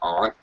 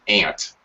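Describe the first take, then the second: First: It is said in a common American accent. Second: It sounds like the insect name 'ant'. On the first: "most Americans say aunt" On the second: "a couple of dialects in America that say ant, like the insect"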